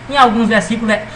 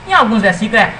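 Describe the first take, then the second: Both takes have the same delivery.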